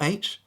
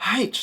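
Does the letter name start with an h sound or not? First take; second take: no h; h sound. First: It begins with no h sound. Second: It begins with a breathy h sound. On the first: The speaker calls it wrong. "it's not H" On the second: The speaker calls it right. "you gotta breathe on that"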